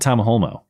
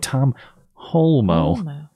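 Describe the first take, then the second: First: The name is said quickly and run together. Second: The name is said slowly and carefully. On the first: The speaker calls it wrong. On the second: The speaker calls it right. "you gotta say it slow"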